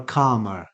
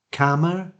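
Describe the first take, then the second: First: Calmer said as KAH-muh; long-vowel variant. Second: Calmer said as KAM-uh; short-vowel variant. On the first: Teacher offering two ways, long back vowel. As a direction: say calmer with the ah of arm. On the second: Teacher offering two ways, short front vowel. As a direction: say Calmer with the a of cat. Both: Shown as a demonstration. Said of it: "two different ways to pronounce this word".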